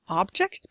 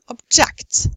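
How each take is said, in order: First: The stress is on the first syllable. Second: The stress is on the second syllable. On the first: It is a noun. "Nouns often have stress on the first syllable" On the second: It is a verb. "verbs often on the second"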